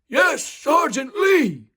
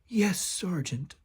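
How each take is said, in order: First: It is said loudly and boldly. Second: It is said quietly and meekly.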